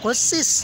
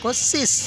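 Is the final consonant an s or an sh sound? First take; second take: s; s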